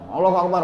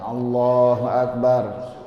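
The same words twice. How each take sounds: First: It is said quickly and hurried. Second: It is said calmly and unhurried. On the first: The prayer is done without calm. The speaker calls it wrong. "Jadi jangan Allahu Akbar" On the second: The prayer is done with calm. The speaker calls it right. "Tuma'ninah itu tenang, nggak buru-buru"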